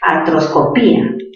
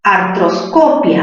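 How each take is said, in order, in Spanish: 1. El acento cae en la sílaba 'pí'. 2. El acento cae en la sílaba 'co'. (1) "la cerrada con mayor fuerza de voz" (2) "En co"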